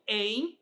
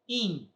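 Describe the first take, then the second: First: The vowel sounds like 'ain'. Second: The vowel sounds like 'in'. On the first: The speaker calls it wrong. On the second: The speaker calls it right.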